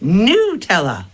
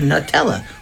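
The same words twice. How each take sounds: First: The first vowel is a long 'ooh', American style. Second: The first vowel is a short 'uh', British style.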